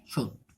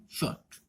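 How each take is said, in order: First: Said in the usual way. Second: शॉर्ट whispered without voice, softer; whispered model of the sh sound; whispered demo. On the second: Shown as a demonstration. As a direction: breathe the word शॉर्ट out softly. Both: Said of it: "कैसे बोला जा रहा है?".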